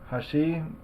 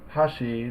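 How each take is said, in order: First: The pitch accent falls on the second mora. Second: The pitch accent falls on the first mora. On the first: It means bridge. "the accent is on the second mora, shi" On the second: It means chopsticks. "the accent is on the first mora, ha"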